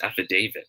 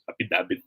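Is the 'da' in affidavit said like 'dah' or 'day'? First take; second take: day; dah. First: The 'da' is said like 'day', long A. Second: The 'da' is said with a short vowel. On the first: The speaker calls it right. "But it should be pronounced as affidavit" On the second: The speaker calls it wrong. "Affidavit pa nga minsan"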